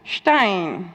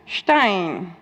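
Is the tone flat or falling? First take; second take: falling; falling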